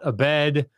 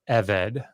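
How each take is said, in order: First: The stress is on the second syllable. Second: The stress is on the first syllable. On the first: The speaker calls it wrong. "It's not a bed" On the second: The speaker calls it right. "The emphasis is on the first syllable"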